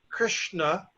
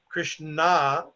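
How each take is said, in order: First: The final vowel is short. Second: The final vowel is drawn out long. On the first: The speaker calls it right. "the name is Krishna" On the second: The speaker calls it wrong. "but not Krishna"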